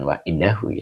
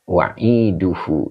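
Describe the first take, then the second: First: The vowel before the final -hu is a. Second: The vowel before the final -hu is u. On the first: The speaker calls it wrong. "Bukan wa'idahu ya" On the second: The speaker calls it right. "Yang di yang yang benar adalah wa'iduhu ini"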